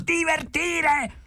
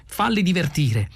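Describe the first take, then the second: First: Very high, slow, stretched cry; outraged shriek. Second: Said in the usual way. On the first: A narrator's reading. Arthur echoes Ford's advice, outraged high shriek. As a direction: shriek the word in outraged disbelief. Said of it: "strillò Arthur".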